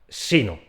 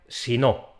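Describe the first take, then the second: First: The syllable 'no' carries no stress of its own. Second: The syllable 'no' carries its own stress. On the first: It means 'but rather'. "se pronuncia sin golpe de voz propio" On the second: It means 'if not' or 'otherwise'. "ese golpe de voz recae en la sílaba no de si no"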